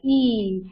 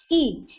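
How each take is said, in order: First: ई drawn out long; stretched long i. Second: ई said short and quick, no stretch; short i sound. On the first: Teacher to class: long ई for the big matra, stretched out. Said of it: "थोड़ा सा stretch करके होता है". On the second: Teacher to class: short ई for the small matra, kept quick. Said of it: "छोटी ई की मात्रा का sound कैसा होता है". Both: Shown as a demonstration.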